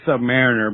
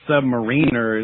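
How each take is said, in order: First: The ending sounds like the word 'mariner'. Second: The ending sounds like the word 'marine'. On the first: A sailor who serves on a submarine. The speaker calls it right. "it's actually submariner" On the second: Someone ranking below a marine. The speaker calls it wrong. "if you say submariner, like you're under a marine"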